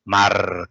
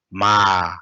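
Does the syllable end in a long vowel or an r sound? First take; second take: r sound; long vowel. First: The syllable ends with a slight r sound. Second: The syllable ends in a lengthened vowel, no r. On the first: "kind of little bit r sound" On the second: "more common is in spoken. We use ma, ra, ma"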